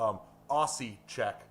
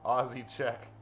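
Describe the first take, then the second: First: Slow teasing call. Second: Said in the usual way. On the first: Shown as a demonstration. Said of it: "Wait, wait, wait, I'm messing with you".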